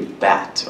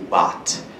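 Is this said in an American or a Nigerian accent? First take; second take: American; Nigerian. First: It is said in an American accent. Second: It is said in a Nigerian accent. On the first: "An American is gonna say bat" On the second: "A Nigerian is gonna say bat"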